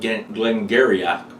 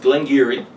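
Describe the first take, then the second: First: The name ends with a throaty 'ch' sound. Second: The name ends with an 'ee' sound. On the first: The speaker calls it wrong. "it reads like Glengarriach, but no" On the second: The speaker calls it right. "it's pronounced Glengarry"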